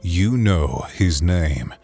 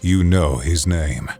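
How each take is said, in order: First: The voice is low, airy and growly. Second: The same.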